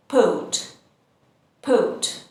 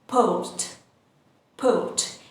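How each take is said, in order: First: Port without the R, British style. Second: Said in the usual way. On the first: Shown as a demonstration. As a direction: say port as "poht", no R at the end. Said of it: "again, we don't pronounce the R sound and we say". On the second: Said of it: "we don't pronounce the R sound".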